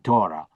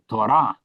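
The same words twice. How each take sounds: First: The stress is on the first syllable. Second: The stress is on the last syllable. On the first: This is the English pronunciation. "in English we say Torah" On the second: This is the Hebrew pronunciation. "as we say it in Hebrew, because accent falls on the last syllable"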